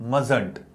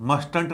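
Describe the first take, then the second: First: The t after the s is silent. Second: The t after the s is pronounced. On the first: The speaker calls it right. "इसका उच्चारण देखो सोनो ठीक से" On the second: The speaker calls it wrong. "मस्टंट नहीं बोलना"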